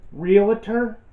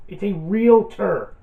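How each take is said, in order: First: Realtor said as "ree-la-tor" with an extra syllable; mock the wrong "ree-la-tor" for Realtor; mispronounced realtor. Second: Realtor said slowly as "reel-tor", two syllables; correct realtor. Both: Shown as a demonstration. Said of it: "there's no I in realtor".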